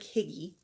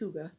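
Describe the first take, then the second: First: It is said like 'higgy', with an i vowel. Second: It is said like 'hooga', with an oo vowel. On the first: This is how the spelling looks. The speaker calls it wrong. "even though it looks like Higgy" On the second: This is how it is really pronounced. The speaker calls it right. "it's pronounced Huga"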